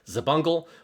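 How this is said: The name is said with English pronunciation. "with like an English voiced accent"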